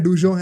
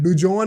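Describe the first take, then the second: First: The name ends in a nasal vowel, French style. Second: The name ends in a plain, full n sound.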